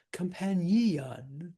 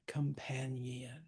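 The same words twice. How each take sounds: First: "companion" as com-pan-EE-on, the EE pushed hard; overplayed extra syllable. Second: "companion" slow and soft, with a light extra ni-un syllable; subtle extension. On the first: Teacher showing what not to do, "companion" with a heavy-handed EE. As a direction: overdo the added syllable in "companion". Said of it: "play it too hard". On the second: Teacher showing the subtle version, "companion" lightly extended. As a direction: gently stretch the end of "companion", barely adding a syllable. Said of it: "It's just an extension". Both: Shown as a demonstration.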